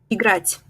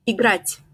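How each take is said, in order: Both takes have the same delivery.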